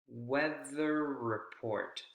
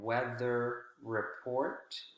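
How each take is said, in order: First: The r sound is pronounced once, lengthened. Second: The r sound is pronounced twice, separately. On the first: The speaker calls it right. "we only pronounce that consonant sound one time" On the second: The speaker calls it wrong. "Instead of"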